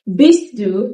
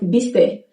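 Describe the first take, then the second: First: Both words are pronounced in full. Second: The two words merge into one shortened form.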